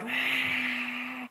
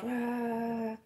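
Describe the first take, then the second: First: The cheer is loud and wild. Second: The cheer is quieter and less wild.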